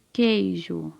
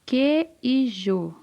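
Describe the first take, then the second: First: Said in the usual way. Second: "queijo" stretched slowly as que-i-jo; syllable by syllable. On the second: Shown as a demonstration. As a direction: break "queijo" into slow, separate sounds, que, i, jo. ("queijo" devagar, separando que-i-jo) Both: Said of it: "Começa com qual sílaba?".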